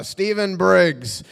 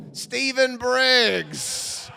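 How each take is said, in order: First: Drawn-out, louder name call; casting caller. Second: Very drawn-out, high-pitched name; determined slate. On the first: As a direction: call out the next name slowly. Casting man calling out a name. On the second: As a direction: push on with the slate, stretching every syllable. Carries on slate after throwing up. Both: Retold or imitated.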